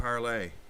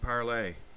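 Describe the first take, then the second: First: The name is pronounced the French way. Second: The name is pronounced the French way.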